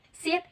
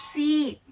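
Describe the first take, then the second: First: "seat" with its vowel cut short; quick, short-vowelled "seat". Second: "seat" with the vowel drawn out long; long, held "seat". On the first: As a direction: say "seat" briefly, as the short half of a length contrast. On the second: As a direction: stretch the vowel of "seat" to show length. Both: Shown as a demonstration. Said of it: "Length is time duration of sounds".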